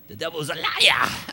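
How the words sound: It is said in a Pentecostal preacher style.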